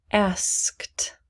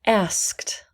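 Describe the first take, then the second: First: A whispered model word. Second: Said in the usual way. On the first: Shown as a demonstration. Teacher whispering a word for students. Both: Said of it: "please repeat after me".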